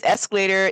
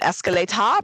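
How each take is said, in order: First: Said in the usual way. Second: "escalator" in mock British, ending in "-ah" with no R; British R-less accent. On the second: Shown as a demonstration. Guessing how the English say it, "escalator" in a British accent without the R. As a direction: fake British "escalator", final R dropped. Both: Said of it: "No R, right?".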